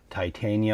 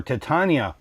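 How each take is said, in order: First: Titania as tie-TAY-nee-uh; first pronunciation option. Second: Titania as tih-TAH-nee-uh; second pronunciation option. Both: Shown as a demonstration. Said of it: "pick the pronunciation that you want".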